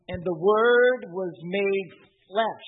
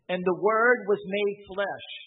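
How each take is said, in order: First: The sentence is read very slowly. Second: The sentence is read at a normal pace.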